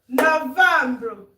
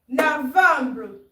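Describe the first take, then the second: No difference in how they are said.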